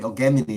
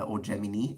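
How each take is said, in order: First: Gemini is pronounced the classical Latin way. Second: Gemini is pronounced the usual English way. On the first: "if you want to pronounce it in Latin" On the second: "if you want to pronounce it that way"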